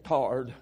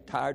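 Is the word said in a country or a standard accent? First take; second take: country; standard. First: The word is said in a country accent. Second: The word is said in a standard accent. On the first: "they say tarred. We're country folk" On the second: "They don't say tired"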